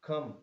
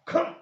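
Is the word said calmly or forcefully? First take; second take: calmly; forcefully. First: The word is said calmly at normal volume. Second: The word is said loudly with strong force. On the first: It is a simple request to come. "आप किसी भी चीज को आप ऐसे ही भी बोल रहे हैं" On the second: It is an exclamation with strong feeling. "जोर से बोल रहे हैं, स्ट्रॉन्ग फीलिंग के साथ"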